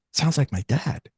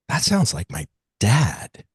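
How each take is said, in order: First: Higher, lighter retold confirmation; confirming recognition. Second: Slow retold realisation, lingering before the last word; measured recognition. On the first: Woman confirming the description is her father, in a higher voice. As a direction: repeat it pitched up, without pushing. Partner repeats after hearing description. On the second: Woman hearing the vision described, slowly recognising her father. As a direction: let the recognition land slowly.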